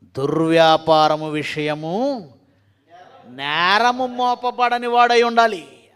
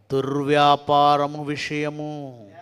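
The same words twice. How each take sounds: First: Loud preaching emphasis. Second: దుర్వ్యాపారము drawn out very slowly, each syllable weighed; measured scripture emphasis on దుర్వ్యాపారము; slow emphatic reading. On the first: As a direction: boom దుర్వ్యాపారము out loud and slow. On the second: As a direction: read దుర్వ్యాపారము విషయము slowly, leaning on దుర్వ్యాపారము. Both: Shown as a demonstration. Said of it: "ఆరో వచనం చదువుదాం".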